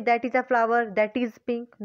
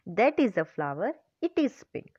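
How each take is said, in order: First: Said in the usual way. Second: Slow, measured correction with IT replacing "that"; corrected example. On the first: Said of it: "हम ये तो लिखेंगे". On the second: Shown as a demonstration. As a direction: give the right version slowly, setting off "it is pink". (सुधारा हुआ वाक्य, धीरे-धीरे "it is pink")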